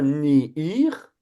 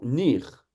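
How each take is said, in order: First: The vowel is split into two syllables. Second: The word is said as one short syllable. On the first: The speaker calls it wrong. "vous n'avez pas ni ir" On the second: The speaker calls it right. "vous avez tout simplement nir"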